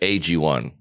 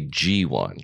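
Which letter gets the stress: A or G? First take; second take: A; G. First: The stress is on the letter A. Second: The stress is on the letter G. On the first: "A lot of people say AG1" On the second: "I put the pronunciation on the G"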